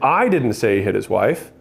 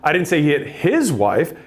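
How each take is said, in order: First: The stress is on didn't. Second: The stress is on his.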